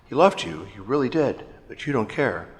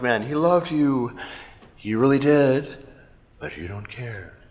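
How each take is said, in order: First: There are short pauses between phrases. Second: There are long pauses between phrases.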